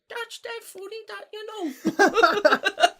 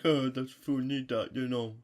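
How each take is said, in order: First: It is said in a high-pitched voice. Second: It is said in a deep voice.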